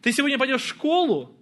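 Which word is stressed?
школу. The stress falls on the word школу. Asks whether the destination is school or somewhere else. "В школу или на каток"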